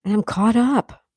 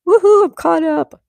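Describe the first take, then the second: First: Said in the usual way. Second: High, loud little celebration; excited cheer. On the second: Real, not acted. Streamer done catching up on chat, cheering. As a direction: whoop it out in triumph.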